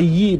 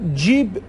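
First: The word begins with a y sound. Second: The word begins with a j sound. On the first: "ج رو به صورت یه هم تلفظ میکنن" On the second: "ج رو به صورت یه هم تلفظ میکنن"

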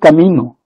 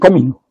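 First: The stress is on the second syllable. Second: The stress is on the first syllable. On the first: This is the standard Spanish pronunciation. "nadie dice camino" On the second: This is how Quechua speakers say it. "todos dicen camino"

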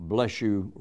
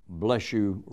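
Both takes have the same delivery.

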